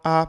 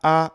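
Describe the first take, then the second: First: The vowel starts with a sharp glottal catch. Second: The same.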